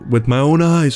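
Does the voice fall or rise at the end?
fall. It is said as a statement, falling.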